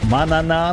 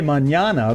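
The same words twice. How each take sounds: First: The middle consonant is a plain 'n'. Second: The middle consonant sounds like 'ny'. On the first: "like banana" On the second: "I want to say Manana, but, you know, there's no N that makes it go that way"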